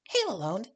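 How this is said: It is said in a put-on character voice.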